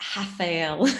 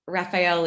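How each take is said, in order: First: The first sound is a Brazilian-style R. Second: The first sound is an English-style R. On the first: "in Brazil, Rafael is Rafael" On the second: "pronounce the Rafael with an R"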